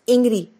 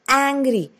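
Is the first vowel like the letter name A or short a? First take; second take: letter name; short a. First: The first vowel sounds like the letter name A. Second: The first vowel is a short a sound. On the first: The speaker calls it wrong. "we don't pronounce it as angry" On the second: The speaker calls it right. "It's angry"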